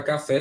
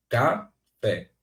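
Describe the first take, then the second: First: Said in the usual way. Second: "café" as two detached syllables, "ca... fé"; split into syllables. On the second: Shown as a demonstration. Teacher separating the word by syllable, "café" split in two. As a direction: say "café" with a clear pause after "ca". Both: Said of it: "se você for separar silabicamente".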